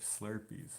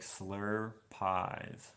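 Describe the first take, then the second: First: Said in the usual way. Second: "slur pies" slowly, as two separate words; misspelling sounded out. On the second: Shown as a demonstration. Streamer teasing a viewer's spelling, slowly sounding out "slur pies". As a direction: say "slur pies" with a drawn-out "slur", then "pies". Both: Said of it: "You spelled that like slur pies".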